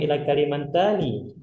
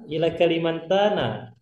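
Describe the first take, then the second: First: The last word ends with an 'i' vowel. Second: The last word ends with an 'a' vowel. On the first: The speaker calls it wrong. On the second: The speaker calls it right.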